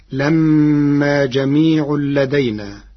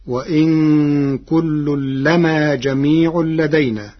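First: لما with a long, doubled mīm hum. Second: لما with a single, undoubled mīm; light mīm. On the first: Teacher quotes the verse before Warsh's reading, mīm doubled in لما. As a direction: hold the "mm" in لما, reciting slowly. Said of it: "قرأ ورش كلمة لما بتخفيف". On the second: Teacher shows Warsh's resulting reading, single mīm in لما. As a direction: recite slowly, "lamā" with a light mīm in لما. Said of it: "لما بتخفيف الميم". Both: Shown as a demonstration.

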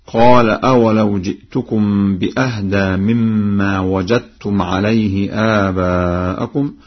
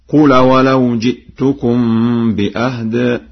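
First: Said in the usual way. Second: Recited command form, "قل" with short u; Warsh reading. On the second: Shown as a demonstration. Teacher demonstrates Warsh's reading, chanting "قل" as qul. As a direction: say "قل" as qul, short u and silent lam. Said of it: "بضم القاف وسكون اللام على الأمر هكذا".

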